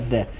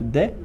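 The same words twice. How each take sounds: First: The word is said with English pronunciation. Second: The word is said with Brazilian Portuguese pronunciation. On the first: "a pronúncia em inglês mesmo certa é" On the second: "aqui no Brasil o pessoal fala muito"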